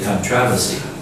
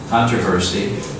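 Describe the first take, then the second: First: It is said the British way. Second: It is said the American way. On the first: "British say controversy" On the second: "Americans say controversy"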